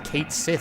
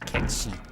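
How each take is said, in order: First: It is said like 'Kate Sith', two separate words. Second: It is said like 'Ketchee', one blended word. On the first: The speaker calls it wrong. "pronounces it as Kate Sith. It doesn't make it right" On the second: The speaker calls it right. "it's a Gallic word. It's pronounced Ketchi"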